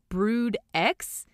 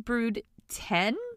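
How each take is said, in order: First: The last word is said as the letter 'ex'. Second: The last word is said as the number 'ten'. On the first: The speaker calls it wrong. "which I actually thought was Brood X" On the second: The speaker calls it right. "It's actually Brood ten"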